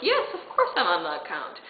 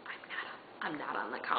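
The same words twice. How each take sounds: First: Full-voiced mock confidence with a laugh; bluffing assurance. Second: Very soft, low mutter; confessional aside. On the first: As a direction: cover the lie with breezy, laughing certainty. Retold bluff to the clerk. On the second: Retold or imitated. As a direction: admit it under your breath, as a secret aside. Private truth before the lie.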